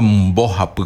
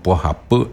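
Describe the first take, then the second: First: "bo japu" with its whole first syllable, starting on mb; uncontracted "bo japu"; full form. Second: "po japu" opening on p in place of mb; shortened "po japu", po replacing the first syllable; contracted form. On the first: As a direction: say "bo japu" complete, opening on a b. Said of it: "no digo bo japu completo". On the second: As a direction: start "po japu" with a clean p. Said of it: "completo, sino po japu". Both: Shown as a demonstration.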